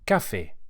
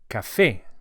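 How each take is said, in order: First: The stress is on the first syllable. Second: The stress is on the last syllable. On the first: The speaker calls it wrong. "and not" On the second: The speaker calls it right. "we emphasize the E vowel as it has an accent on it"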